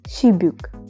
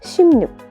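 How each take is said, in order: First: No n is added; b links into the vowel. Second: An m sound comes before an added n. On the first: The speaker calls it wrong. "If we didn't know all these rules, we would uh, pronounce it as shibuk" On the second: The speaker calls it right. "So this word will be pronounced as shimnuk"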